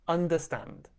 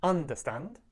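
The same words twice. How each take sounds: First: "Understand" with the beat on STAND; stress on final syllable. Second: "understand" with the beat wrongly on UN; wrong stress on first syllable. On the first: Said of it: "Stand is a little bit more stressed". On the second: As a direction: say "understand" as UN-derstand, rising at the end. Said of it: "We don't say". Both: Shown as a demonstration.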